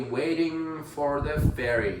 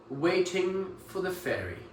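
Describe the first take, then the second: First: The R in 'for' is pronounced. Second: The R in 'for' is silent. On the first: "American English where you would actually pronounce that" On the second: "Let me fix that"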